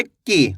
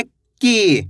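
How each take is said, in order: First: "की" said with a short, clipped i sound. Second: "की" said with a long, drawn-out ee. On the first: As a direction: keep the i in "की" brief. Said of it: "छोटी ई की मात्रा थी तो कैसे पढ़े". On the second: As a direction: stretch the ee in "की". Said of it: "इसके उच्चारण में ज़्यादा समय लगेगा की". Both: Shown as a demonstration.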